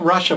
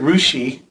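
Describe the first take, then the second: First: The name ends with an 'uh' sound. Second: The name ends with an 'ee' sound. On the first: This is how the spelling suggests it is said. "I know it looks like Russia" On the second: This is how the local people say it. "but they pronounce it Rushi"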